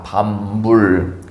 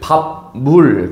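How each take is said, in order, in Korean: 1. 첫 음절은 m 소리로 끝나요. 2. 첫 음절은 p 소리로 끝나요.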